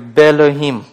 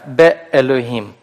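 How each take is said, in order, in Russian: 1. Два гласных сливаются, без смычки. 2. Гортанная смычка разделяет два гласных. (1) "теряется «алеф», он выпадает полностью" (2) "нужно остановиться, чтобы обозначить «алеф»"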